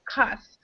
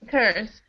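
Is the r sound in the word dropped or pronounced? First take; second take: dropped; pronounced. First: The vowel has no r sound after it. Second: The vowel is followed by an r sound. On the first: It is a more slangy, casual form. "when you pronounce it, it sounds like this, cuss" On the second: It is the standard form. "But it all it means curse"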